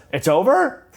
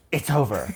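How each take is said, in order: First: Pitched up high and louder, rising; high surprised question. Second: Said in the usual way. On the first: Retold or imitated. Cher misunderstands the instructor, high rising surprise. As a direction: sound shocked and hopeful. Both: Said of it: "she goes".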